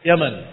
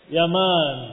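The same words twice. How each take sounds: First: The second vowel is short. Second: The second vowel is long. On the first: It names the country. "Kalau negeri Yaman tanpa mad" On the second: It names the father. "Tetapi ini al Yaman, ini nama bapaknya"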